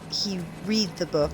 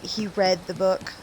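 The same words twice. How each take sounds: First: The word read rhymes with reed. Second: The word read rhymes with red. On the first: The speaker calls it wrong. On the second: The speaker calls it right.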